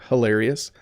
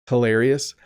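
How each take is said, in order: Both takes have the same delivery.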